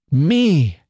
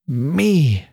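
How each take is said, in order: First: High, swooping one-word exclamation; astonished cry. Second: Drawn-out, bitter exclamation. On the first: Annie hearing she is chosen, astonished cry. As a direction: cry ME out in disbelief. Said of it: "cried Annie". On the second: Annie repeating her reply to being chosen, bitter. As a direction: stretch ME out bitterly. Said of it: "repeated Annie with a terrible, bitter accent". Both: A narrator's reading.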